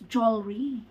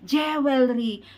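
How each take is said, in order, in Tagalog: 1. Binibigkas ang salita sa makinis na pamantayang paraan ng Ingles. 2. Binibigkas ang salita sa matigas at may malakas na aksent. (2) "Ang tigas na dila ko"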